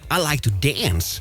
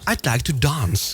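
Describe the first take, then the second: First: It is said in an American accent. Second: It is said in a British accent.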